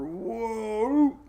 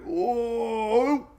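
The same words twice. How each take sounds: First: High, rising mock whoa again; whoa sound effect. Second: High, rising mock whoa; whoa sound effect. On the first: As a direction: bounce it off the block with a high whoa. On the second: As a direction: play the storm bumping the wall. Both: Mimicking the storm bouncing off high pressure.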